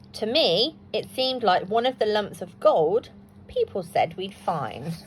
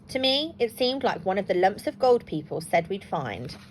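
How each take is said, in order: First: The sentence is read more slowly. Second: The sentence is read too quickly. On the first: The speaker calls it right. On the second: The speaker calls it wrong.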